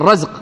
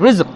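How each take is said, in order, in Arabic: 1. الحركة الأولى هي فتحة قصيرة 'a'. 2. الحركة الأولى هي كسرة قصيرة 'i'. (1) "يكون بالفتحة الرزق" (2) "تكون بالكسر رزق"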